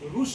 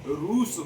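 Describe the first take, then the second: First: The vowel is short. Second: The vowel is long. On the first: The speaker calls it wrong. "नहीं होता है" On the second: The speaker calls it right. "होता है ... बड़ा ऊ का मात्रा"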